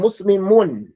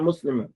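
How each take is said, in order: First: The word ends with a clear final 'un' sound. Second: The word ends on 'm' with no final 'un'. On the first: The speaker calls it right. "I have to hear the noon" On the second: The speaker calls it wrong.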